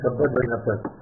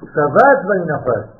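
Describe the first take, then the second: First: The first word is said as shabbat. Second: The first word is said as shavat. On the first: It is read as the noun for the Sabbath day. The speaker calls it wrong. "הרבה אנשים אומרים שבת וינפת. זה לא שבת וינפת" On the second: It is read as a verb meaning he rested. The speaker calls it right. "זה פעולה, זה שם פועל, הוא שובד"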